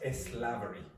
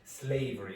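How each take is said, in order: First: An extra 'eh' vowel comes before the s. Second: The word starts directly with the s sound. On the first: The speaker calls it wrong. "not slavery" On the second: The speaker calls it right. "the technical pronunciation is slavery"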